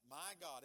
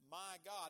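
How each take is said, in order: First: "my" carries the emphasis in "my God"; stress on my. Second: "God" carries the emphasis in "my God"; stress on God. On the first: Preacher explaining God is personal to him, stress on "my". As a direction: punch the word "my". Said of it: "emphasis on my here". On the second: Preacher explaining God's majesty, stress on "God". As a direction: punch the word "God". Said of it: "emphasis on God". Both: Shown as a demonstration.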